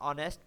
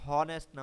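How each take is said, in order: First: The word starts with a vowel sound. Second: The word starts with an h sound. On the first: The speaker calls it right. "ऑनेस्ट पढ़ें" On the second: The speaker calls it wrong. "हॉनेस्ट ना पढ़ें"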